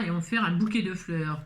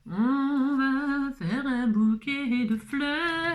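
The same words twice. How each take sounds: First: Said in the usual way. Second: Drawn out. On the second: Pretend. Crafter stretching out the line playfully while working. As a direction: draw out each word slowly and sing-song.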